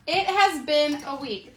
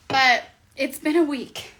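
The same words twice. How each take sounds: First: "has" leaned on hard, whole line slow; stress on HAS. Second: Said in the usual way. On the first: Shown as a demonstration. Vlogger repeats to viewers how rough the week was, slow, stressing "has". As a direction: drag out "It has been a week" and punch "has".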